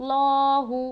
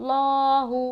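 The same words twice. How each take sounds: The two takes are said the same way.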